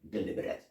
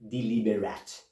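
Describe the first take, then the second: First: The unstressed vowels are reduced to a vague uh. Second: Every unstressed vowel is pronounced clearly and fully. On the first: "So you would say deliberate" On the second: "Finns would try to pronounce that word more specifically"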